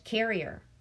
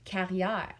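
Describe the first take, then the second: First: The name is said with English pronunciation. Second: The name is said with French pronunciation.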